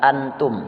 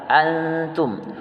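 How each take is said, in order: First: The 'n' is pronounced as a clear full consonant. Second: The 'n' is hidden as a faint nasal sound. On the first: The speaker calls it wrong. "bukan antum" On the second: The speaker calls it right. "dia ikhfa samar"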